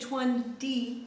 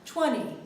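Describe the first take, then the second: First: The T after the N is clearly pronounced. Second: The T is dropped, leaving only an N. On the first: The speaker calls it wrong. "we wouldn't really say twenty, twenty, that's weird, uh, hard to say" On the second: The speaker calls it right. "we basically just drop the T sound. twenty, twenty, sounds like just an N"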